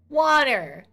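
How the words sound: The first vowel is an open 'ah' sound. The speaker calls it right. "It's an A"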